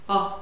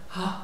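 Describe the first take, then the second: First: The vowel starts with a firm, clean onset. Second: The vowel starts with a breathy, airy onset. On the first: The speaker calls it right. "kiinteitä alukkeita" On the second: The speaker calls it wrong. "välttää sitä, että siihen tulee sitä ha"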